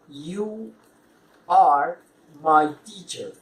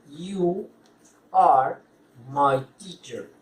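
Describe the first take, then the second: Both takes have the same delivery.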